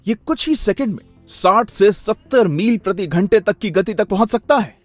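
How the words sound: It is said with wide-eyed amazement and wonder.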